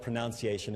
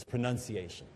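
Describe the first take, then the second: First: Pronunciation with NOUN as second syllable. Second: Pronunciation with NUN as second syllable. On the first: Quoting a corrector's rejected form, pronunciation said with "noun". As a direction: say "pronunciation" as pro-NOUN-ciation. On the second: Quoting a corrector's preferred form, pronunciation said with "nun". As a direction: say "pronunciation" as pro-NUN-ciation. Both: Shown as a demonstration. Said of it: "there are some people like".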